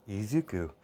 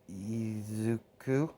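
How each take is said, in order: First: Said in the usual way. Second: Slow, hesitant try at the word Izuku, rising at the end; a slow, unsure Izuku from a small boy; child repeating a new name. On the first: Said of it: "And she's like". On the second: Retold or imitated. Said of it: "As he said".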